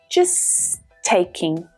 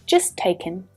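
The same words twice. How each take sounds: First: The ending of taking is said in full. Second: The ending of taking is reduced. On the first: "That T sound is only pronounced once" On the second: "that mm sound at the end can even reduce down to the mm sound"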